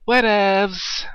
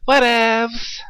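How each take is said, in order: First: Whatevs said high and sing-song; high mocking imitation of the annoying word. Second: Whatevs! squealed very high and loud; hammed-up shrill mockery of whatevs; whatevs impression. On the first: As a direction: mimic the annoying friend mockingly. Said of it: "like when he says". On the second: Shown as a demonstration. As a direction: exaggerate how annoying it sounds. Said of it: "giving my impression of what it sounds like".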